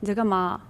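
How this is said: It sounds annoyed and cold.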